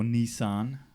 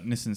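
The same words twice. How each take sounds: First: It is said with an American pronunciation. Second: It is said with an Australian pronunciation.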